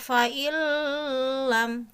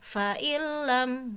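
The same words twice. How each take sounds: First: The merged sound is nasalized and held longer. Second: The merged sound is plain, without nasal holding. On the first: The speaker calls it wrong. "jangan sampai baca fa'illam" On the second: The speaker calls it right. "tanpa disertai gunnah"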